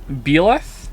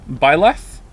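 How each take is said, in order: First: "Beleth" with a short "beh" first syllable; "Beleth" tried as BEH-leth, questioning; Byleth as BEH-leth. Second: "Byleth" said with a long "bye" first syllable; "Byleth" pronounced BYE-leth, asking if it's right. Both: Shown as a demonstration. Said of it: "Am I saying Byleth's name wrong".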